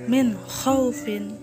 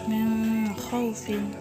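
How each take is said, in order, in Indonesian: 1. Bunyi n diucapkan dengan jelas dan tegas. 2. Bunyi n kabur, tidak diucapkan dengan jelas. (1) "Yang benar adalah min khaufin" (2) "Jangan dibaca min khaufin atau min khaufin. Itu salah ya"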